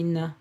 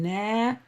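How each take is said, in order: First: The vowel is cut short. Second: The vowel is held long. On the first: The speaker calls it right. "A short vowel makes the uh, the same sounds as long vowels, but uh, shorter" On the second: The speaker calls it wrong. "So instead of saying na"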